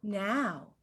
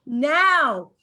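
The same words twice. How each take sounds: First: A soft, low little "Now." mimicking him; mock stammer. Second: A louder, punchier "Now." mimicking him; mock stammer. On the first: [name] mocking Troy's first "Now", soft and low. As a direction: say "Now." softly, as his first stumble. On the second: [name] mocking Troy's second "Now", louder. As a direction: say "Now." loud, as his second stumble. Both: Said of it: "You just said two nows".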